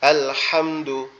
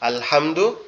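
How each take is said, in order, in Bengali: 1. h ধ্বনিটি ভারী, গলা থেকে চাপ দিয়ে বের হয়। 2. h ধ্বনিটি হালকা, সাধারণ একটি শ্বাস। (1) "এটার অর্থ হচ্ছে কি? সমস্ত প্রশংসা।" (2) "এই হাটা দিয়ে যদি পড়ি"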